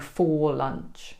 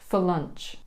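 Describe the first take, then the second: First: The word 'for' is said with a full vowel. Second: The word 'for' is reduced to a schwa vowel. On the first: The speaker calls it wrong. "we don't say for lunch" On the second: The speaker calls it right. "There's another sneaky schwa e sound in here"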